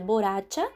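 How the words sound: It is said with Spanish pronunciation. The speaker calls it right. "mas na verdade se pronuncia borracha"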